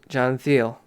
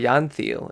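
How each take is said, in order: First: The first name is said the English way. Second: The first name is said the Dutch way.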